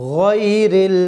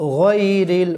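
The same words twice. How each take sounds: First: The first syllable sounds like 'goy'. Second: The same.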